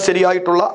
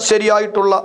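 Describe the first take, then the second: No difference in how they are said.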